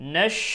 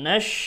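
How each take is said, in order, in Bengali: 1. এটি sh ধ্বনি দিয়ে বলা হয়। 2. এটি sh ধ্বনি দিয়ে বলা হয়।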